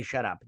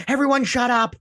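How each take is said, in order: First: Said in the usual way. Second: Sudden high yelled order; mock shout. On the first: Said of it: "But he doesn't say". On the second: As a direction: bark it at the whole room like a stern alien. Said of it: "And he's like, he's like".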